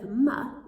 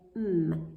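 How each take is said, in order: First: An 'uh' vowel is added after the sound. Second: The sound is said alone without 'uh'. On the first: The speaker calls it wrong. "instead of m" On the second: The speaker calls it right. "we'd say m"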